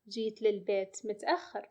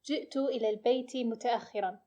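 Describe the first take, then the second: First: It uses shortened dialect sounds and endings. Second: It uses full standard sounds and endings.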